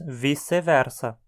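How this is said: Portuguese-style, with the c sounding like s. "com pronúncia portuguesada, dizemos"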